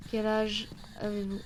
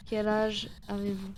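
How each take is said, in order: Both takes have the same delivery.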